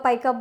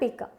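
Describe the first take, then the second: First: The first vowel sounds like "eye". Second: The first vowel sounds like "ee". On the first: The speaker calls it wrong. "बहुत सारे लोग इसे गलत pronunciate करते हैं" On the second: The speaker calls it right. "But it's a पिका"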